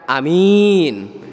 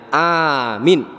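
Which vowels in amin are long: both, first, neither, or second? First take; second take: second; first. First: Only the second vowel is long. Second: Only the first vowel is long. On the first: It means trustworthy. "A-nya pendek, min-nya panjang" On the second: It means safe. "A-nya saja yang panjang, min-nya pendek"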